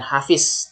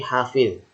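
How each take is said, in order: First: The last consonant is a plain z sound. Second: The last consonant is a dh-like sound. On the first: The speaker calls it wrong. "bukan hafiz" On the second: The speaker calls it right. "tapi hafidz, pakai dho"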